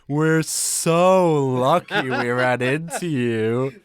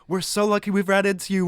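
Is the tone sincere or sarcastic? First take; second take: sarcastic; sincere. First: It is said in a sarcastic tone. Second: It is said sincerely, without sarcasm.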